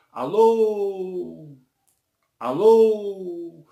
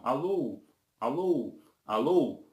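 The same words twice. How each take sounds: First: "Alô" with the last vowel held long, higher and louder; long-drawn, raised "Alôôô", slowly tailing off; prolonged reverberation. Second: Short "alô", repeated with a gap between each; brief unstretched "alô" repeats, evenly spaced; echo repetition. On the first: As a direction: stretch "Alô" out like sound ringing in a hall. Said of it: "Então há um prolongamento". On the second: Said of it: "Em vez de ser a repetição". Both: Shown as a demonstration.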